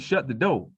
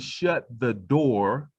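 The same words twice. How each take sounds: First: The r at the end of door is dropped. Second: The r at the end of door is pronounced. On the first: "They would say" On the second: "People would never say"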